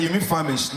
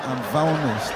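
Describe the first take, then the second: First: Famished said clearly as fam-ished; mock puzzled correction of famished. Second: Famished said as vanest with a v; imitating the girl's famished as vanest; mock mispronounced famished.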